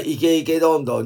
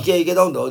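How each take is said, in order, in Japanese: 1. このフレーズはゆっくりめのペースで言われています。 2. このフレーズは速く言われています。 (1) "普通のスピードは後の方ぐらい？ そうだよ。" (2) "イケイケどんどんって言うと早くなる。"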